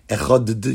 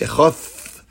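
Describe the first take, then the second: First: The word ends with a hard d sound. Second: The word ends with a soft th sound. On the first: "the way we pronounce an Ois Dalet" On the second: "their pronunciation of a dalet is a echoth. So it's a type of th"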